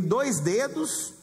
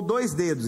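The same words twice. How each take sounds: First: "dois dedos" with DOIS drawn out; stress on DOIS. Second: Said in the usual way. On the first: Shown as a demonstration. Preacher showing two finger measures, DOIS stretched. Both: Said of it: "Entendeu a diferença".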